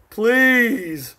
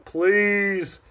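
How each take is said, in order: First: A louder, scornful "Please."; scornful "Please." said louder and higher; scoffing. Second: Said in the usual way. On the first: Real, not acted. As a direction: dismiss it outright with "Please.". Dismissing a rival marker.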